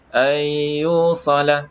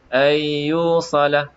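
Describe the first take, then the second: No difference in how they are said.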